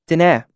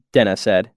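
First: Put-on slightly higher young woman voice; Denna's voice. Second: Said in the usual way. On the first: A narrator's reading. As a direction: she names herself lightly.

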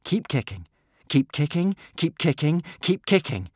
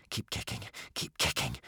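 First: High, insistent repeated urging; urgent urging. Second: Unvoiced, hushed urging; whisper. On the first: Boy urging tired swimmers on, insistent. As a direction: urge them on, higher after the first. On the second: Boy urging swimmers on warily, whispering. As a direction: whisper it so nothing below hears. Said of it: "whispered Hiccup". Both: A narrator's reading.

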